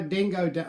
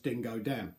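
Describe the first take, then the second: First: Dingo Dan in a light Australian accent. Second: Said in the usual way. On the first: Shown as a demonstration. Beard reviewer saying the brand name, in an Australian accent. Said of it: "I have to say it in an Australian accent". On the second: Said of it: "as opposed to just Dingo Dan".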